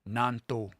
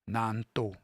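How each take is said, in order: The two takes are said the same way.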